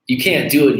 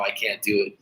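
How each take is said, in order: First: You and can't both pushed up high and loud, can't falling hard; emphatic echo. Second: Said in the usual way. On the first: Real, not acted. Host echoing the caller's refusal, stressing can't. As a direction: punch can't as a firm verdict.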